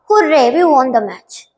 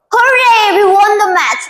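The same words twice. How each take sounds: First: Said in the usual way. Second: Joyful shout of victory; excited cheer. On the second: Shown as a demonstration. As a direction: cheer it like your team just won. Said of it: "what do you say?".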